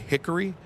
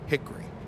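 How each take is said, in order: First: The middle vowel is kept, giving three syllables. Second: The middle vowel is dropped, giving two syllables. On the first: This is how northerners say it. The speaker calls it wrong. "I'm trying very hard not to say Hickory" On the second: This is how southerners say it. The speaker calls it right. "in the south it's H I C K R Y"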